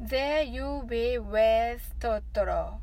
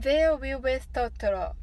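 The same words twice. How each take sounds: First: The phrase is said at a normal pace. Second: The phrase is said fast, like a tongue twister. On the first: "練習してみましょう" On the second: "早口言葉のように言ってみましょう"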